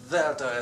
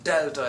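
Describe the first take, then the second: First: It begins with a soft th sound. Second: It begins with a hard d sound. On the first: "as in thorough" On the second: "as in Douglas"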